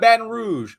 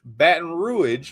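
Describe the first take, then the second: First: "Baton Rouge" with Rouge as one syllable, roozh; slow standard "Baton Rouge", ROOZH; standard pronunciation. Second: "Baton Rouge" drawn out, Rouge as ROO-idge; stretched local "Baton Rouge", two-syllable Rouge; local pronunciation. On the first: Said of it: "not Baton Rouge". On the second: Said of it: "that is how the accent's gonna start to pronounce itself". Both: Shown as a demonstration.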